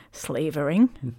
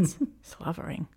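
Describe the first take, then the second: First: "slavering" drawn out slowly, falling at the end; slowly sounding out. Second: "slavering" whispered with a false start on s-; whispered correction. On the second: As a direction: breathe "s-, slavering" quietly as a self-correction. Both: Shown as a demonstration. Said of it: "I couldn't read that word then".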